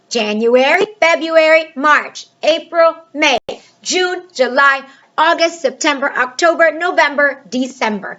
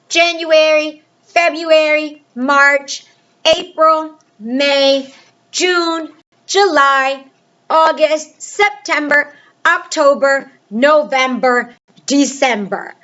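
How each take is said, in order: First: The months are recited at a faster pace. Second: The months are recited at a slower pace.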